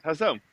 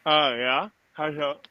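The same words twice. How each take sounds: First: Said in the usual way. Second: Talking around a cigar in mouth. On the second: Real, not acted. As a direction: mouth full of cigar, words muffled. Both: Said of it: "Sorry, I had a cigar in my mouth".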